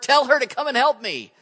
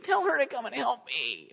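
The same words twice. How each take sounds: First: It is said in an angry, demanding tone. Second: It is said in a whiny, complaining tone.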